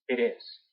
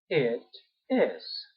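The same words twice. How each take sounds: First: The two words run together smoothly. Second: The two words are said separately. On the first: "se juntan un poco más el pronombre con el verbo" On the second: "uno puede decir yes, it is"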